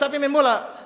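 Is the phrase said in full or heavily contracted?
contracted. It is said quickly, contracted in eastern Indonesian style.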